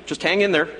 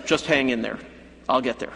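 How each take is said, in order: First: Firm, upbeat encouragement; encouraging. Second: Patronizing. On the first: Jesus encouraging John to hold on, firm and upbeat. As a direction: urge him to hold on. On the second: Jesus brushing off John, mildly patronizing reassurance. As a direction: brush him off with false comfort. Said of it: "he could have been patronizing". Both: Pretend.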